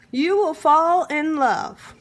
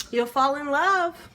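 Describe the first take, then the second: First: Will punched loud, slow and drawn out; stress on will. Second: Said in the usual way. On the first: Shown as a demonstration. Cook promising viewers, stressing will. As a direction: lean hard on will.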